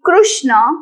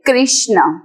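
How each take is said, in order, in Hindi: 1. पहला अक्षर 'kru' की तरह बोला जाता है। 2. पहला अक्षर 'kri' की तरह बोला जाता है। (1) "avoid saying Krishna" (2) "say Krishna"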